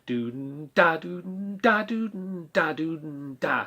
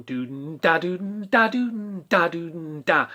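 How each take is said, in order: First: Exaggerated scat figure, fading; exaggerated popping ands. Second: Sung with popped offbeats; exaggerated scat figure; exaggerated accent. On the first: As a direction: let the offbeats pop. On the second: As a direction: push the and beats hard. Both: Shown as a demonstration. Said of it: "a bit exaggerating there".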